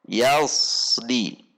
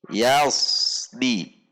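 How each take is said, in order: The two takes are said the same way.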